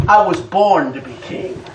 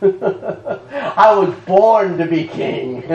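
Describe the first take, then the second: First: Said in the usual way. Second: Slow, savouring laugh through the words; delighted slow repeat; chuckling and drawn out. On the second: Shown as a demonstration. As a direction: relish it slowly, laughing.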